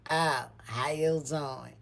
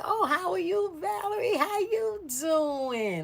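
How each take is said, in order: First: Slow, drawn-out cool greeting; changed attitude. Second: Very high, drawn-out singsong hello; friendly greeting. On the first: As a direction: imitate a suddenly unimpressed hello. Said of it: "her whole attitude changed". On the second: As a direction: imitate a gushing greeting, stretching the last word. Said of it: "Like that". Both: Retold or imitated.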